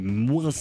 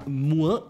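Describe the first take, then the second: First: The final S is pronounced. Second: The final S is silent.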